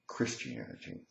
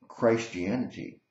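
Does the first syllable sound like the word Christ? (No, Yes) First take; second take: No; Yes. First: The first syllable does not sound like Christ. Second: The first syllable sounds like the word Christ.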